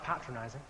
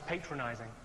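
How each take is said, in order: First: The word is said with a British pronunciation. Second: The word is said with an American pronunciation. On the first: This is the pronunciation the speaker calls proper. The speaker calls it right. "I think you'll find that's pronounced patronizing" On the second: This is how the American visitor said it. The speaker calls it wrong. "one came up to me ... said he thought I was patronizing"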